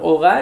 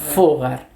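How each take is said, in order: First: The word begins directly with a vowel sound. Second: The word begins with an f sound. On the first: This is the modern pronunciation. "la H pues no, no tiene sonido ahí" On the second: This is the old, original pronunciation. "Originalmente, repito, ese era el sonido de la letra H"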